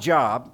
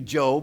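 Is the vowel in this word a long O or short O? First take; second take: short O; long O. First: The vowel is a short O sound. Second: The vowel is a long O sound. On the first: The speaker calls it wrong. "It's not Job" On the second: The speaker calls it right. "it's actually Job with a long O"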